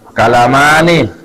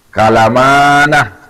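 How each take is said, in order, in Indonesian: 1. Huruf n terakhir diikuti vokal i. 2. Huruf n terakhir diikuti vokal a. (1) "Dibaca kasrah" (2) "ada juga yang membaca tapi sedikit"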